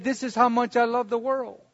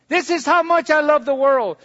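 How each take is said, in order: First: Soft, tender reply; softly voiced Jesus. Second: Building proclamation. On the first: Jesus answering the world's question, softer and tender. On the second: Acted. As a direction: swell it up for the congregation. Repeat built up louder.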